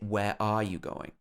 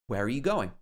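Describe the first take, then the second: First: The word 'are' is said in full. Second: The word 'are' is reduced to 'uh'. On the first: "We wouldn't normally say" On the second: "Here it's pronounced uh"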